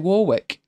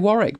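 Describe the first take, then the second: First: The middle W is sounded. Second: The middle W is silent. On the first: The speaker calls it wrong. "a lot of people look at it and say Warwick. And it's not" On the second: The speaker calls it right. "We would say Warwick"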